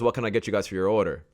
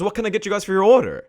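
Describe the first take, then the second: First: It is said flatly with low, even energy. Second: It is said energetically with lively, varied pitch. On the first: The speaker calls it wrong. "That sounds so boring" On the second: The speaker calls it right. "Sound more like"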